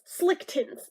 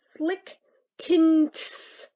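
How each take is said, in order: First: The N sound in tints is dropped. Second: The N sound in tints is clearly pronounced. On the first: The speaker calls it wrong. "probably came out sounding like slick tits because of my speech impediment" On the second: The speaker calls it right. "I enunciated it. There's an N in there"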